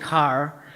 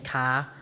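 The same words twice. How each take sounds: First: It is said with standard American r-pronunciation. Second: It is said with a Boston accent, without the r.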